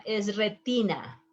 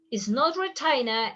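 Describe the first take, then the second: First: Retina said the Spanish way, "re-TEE-na"; Spanish pronunciation. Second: Retina said the English way, "re-TAI-na"; wrong English pronunciation. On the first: Teacher shows the right way: retina as re-TEE-na. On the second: Teacher shows the wrong way: retina as re-TAI-na. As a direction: say retina as an English speaker would. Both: Shown as a demonstration.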